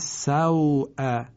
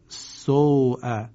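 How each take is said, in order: First: The vowel is an open a gliding into w. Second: The vowel is a rounded oo without open a. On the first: "کلمه سوء" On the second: "شاید خوانده شود سوء"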